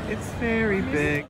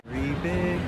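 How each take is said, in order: First: High, slow and stretched out; exaggerated high voice. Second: Said in the usual way. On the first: Shown as a demonstration. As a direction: say it big and high, drawn out. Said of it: "repeats with exaggerated high voice". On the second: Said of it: "repeats phrase, second take bigger".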